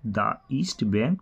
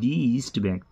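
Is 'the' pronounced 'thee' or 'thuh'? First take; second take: thuh; thee. First: 'The' is said with a short 'thuh' vowel. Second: 'The' is said with a long 'thee' vowel. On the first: The speaker calls it wrong. "তা নয়" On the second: The speaker calls it right. "তখন আমরা উচ্চারণ করব দি"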